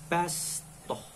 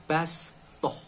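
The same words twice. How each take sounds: The two takes are said the same way.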